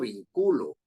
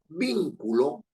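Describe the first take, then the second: First: The stress falls on a later syllable. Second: The stress falls on the first syllable. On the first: The speaker calls it wrong. "No estoy diciendo vinculo" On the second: The speaker calls it right. "Sino es vin, anterior a la penúltima"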